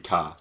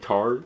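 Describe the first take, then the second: First: The final R sound is dropped entirely. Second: The final R sound is clearly pronounced. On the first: "sometimes it'll be ka" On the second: "if I say anything that ends in a hard R"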